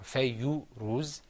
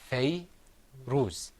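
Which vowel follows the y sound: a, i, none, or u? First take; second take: u; none. First: A short u vowel follows the y sound. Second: No vowel follows the y sound. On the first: The speaker calls it wrong. "or fayyu ruz" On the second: The speaker calls it right. "It's fay ruz. So when there's no sound after the letter"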